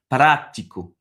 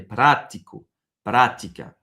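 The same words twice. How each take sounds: First: "prático" slow, PRA said stronger; stress on PRA. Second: "Prático" with PRA lifted and stronger; rising stress on PRA. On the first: Teacher demonstrates the tonic accent to the student, slow stressed PRA. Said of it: "prononcer plus fort". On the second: Teacher raises the accented syllable for the student, stressed PRA. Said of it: "On va monter". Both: Shown as a demonstration.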